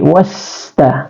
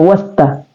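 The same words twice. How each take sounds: First: The s sound continues with flowing breath. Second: The s sound is cut short without breath. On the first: The speaker calls it right. "tapi wasta, ... yang benar adalah was, karena dia adalah hamas, mengalir napas" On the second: The speaker calls it wrong. "Jadi bukan wasta"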